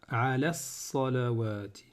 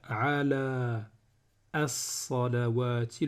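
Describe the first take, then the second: First: The 'a' sound before 'salawati' is dropped. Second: The 'a' sound before 'salawati' is pronounced. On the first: The speaker calls it right. "le son A ici là, il ne va pas se prononcer. Je vais faire" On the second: The speaker calls it wrong. "au lieu de faire"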